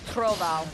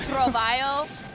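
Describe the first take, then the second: First: It is said with a Portuguese-style pronunciation. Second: It is said with a Spanish-style pronunciation. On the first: The speaker calls it right. "in Portuguese, it's Trovao" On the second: The speaker calls it wrong. "If I were to say it in Spanish, I definitely would think it was Trovaio"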